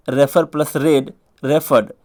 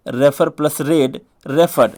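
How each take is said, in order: Both takes have the same delivery.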